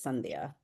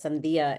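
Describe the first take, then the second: First: The stress is on the first syllable. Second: The stress is on the second syllable. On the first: The speaker calls it right. "my accent's just on the first syllable" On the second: The speaker calls it wrong. "Sandía is watermelon in Spanish"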